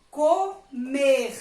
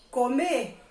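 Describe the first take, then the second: First: "comer" slowly as CO, pause, MER with breathy throat R; syllables split, R sounded. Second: Said in the usual way. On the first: Shown as a demonstration. Teacher reading an action word, syllables split and R sounded. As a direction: stretch "comer" in two syllables, ending on a throaty R. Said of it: "Está lá no final da sílaba". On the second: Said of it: "Eu estou fazendo a ação de".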